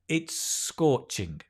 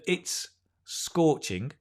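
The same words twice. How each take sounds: First: The two S sounds merge into one. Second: The two S sounds are said separately. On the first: The speaker calls it right. "just link" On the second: The speaker calls it wrong. "Instead of it's scorching"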